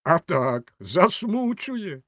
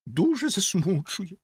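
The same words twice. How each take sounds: First: High, stretched-out "засмучує"; emphatic drawn-out exclamation; exclaimed echo. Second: High, slow "засмучує"; theatrical high-pitched sorrow; professed distress. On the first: A narrator's reading. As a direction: punch the agreement, then drag "засмучує" high. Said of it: "вигукнув бенгальський вогонь". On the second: Acted. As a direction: draw out "засмучує" high and plaintive. Rocket professes great distress.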